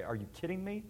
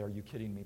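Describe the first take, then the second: First: Mock-derisive "Are you kidding me?" with a rising "me"; imagined God sneering, mildly derisive; derisive scoff. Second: Said in the usual way. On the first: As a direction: scoff at the listener in pretend derision. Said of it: "with a certain matter of derision and say". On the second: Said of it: "He would not say".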